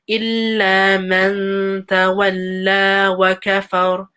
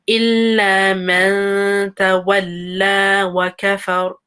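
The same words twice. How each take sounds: Both takes have the same delivery.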